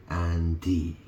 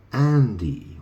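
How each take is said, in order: First: Said in the usual way. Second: "Andy" punched higher and louder, first syllable hit hard; "Andy" called out with a sharp, loud high accent; Andy stressed. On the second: Shown as a demonstration. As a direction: land hard on "Andy", pitch jumping up. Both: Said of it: "You pronounce that an".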